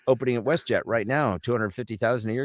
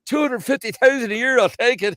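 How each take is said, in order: First: Put-on matter-of-fact Newfoundland accent; businesslike Newfoundland-accented clerk. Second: Very high, loud incredulous squeal; amazed. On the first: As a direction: state the offer evenly in a Newfie accent. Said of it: "jump the pond over to Newfoundland". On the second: Acted. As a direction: squeal it in astonished Newfoundland accent. Amazed job seeker in acted joke.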